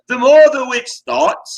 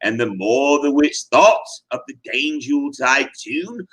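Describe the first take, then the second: First: "more" punched high and loud; stress on more. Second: Said in the usual way. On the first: Shown as a demonstration. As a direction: hit "more" hard and high.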